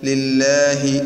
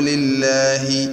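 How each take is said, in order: Both takes have the same delivery.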